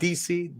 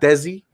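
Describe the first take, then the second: First: The name is said as two letters, 'D C'. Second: The name sounds like 'Desi', with a 'deh' vowel. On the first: "not D C" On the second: "not Desi"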